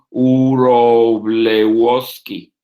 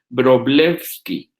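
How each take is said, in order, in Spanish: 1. El apellido empieza con sonido de W. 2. El apellido empieza con sonido de V. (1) "decirlo con W, Uroblewski, pues está muy difícil" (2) "si ustedes lo transforman al sonido fonético de V"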